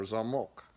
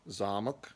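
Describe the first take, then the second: First: Zamok with MOK stressed; stress on last syllable. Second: Zamok with ZA stressed; stress on first syllable. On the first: Teacher repeating lock, stress at the end. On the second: Teacher repeating castle, stress up front. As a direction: lean on ZA in Zamok. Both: Shown as a demonstration. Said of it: "for example".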